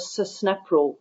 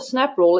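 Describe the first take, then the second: First: The opening s sound is drawn out long. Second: The opening s sound is short and plain. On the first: The speaker calls it right. "because it's got two S's at the start" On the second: The speaker calls it wrong. "it's not the snap rule"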